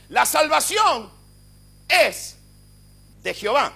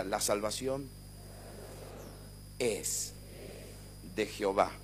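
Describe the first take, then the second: First: Shouted high and slow, salvación stretched out; same phrase now preached at full force; fiery proclamation. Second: Quiet, lower, unhurried call to repeat; gentle prompt for the congregation; soft recitation. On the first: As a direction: declare "La salvación" as a triumphant roar. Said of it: "le voy a decir lo que significa". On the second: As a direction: say it softly for the church to echo. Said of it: "diga conmigo". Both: Shown as a demonstration.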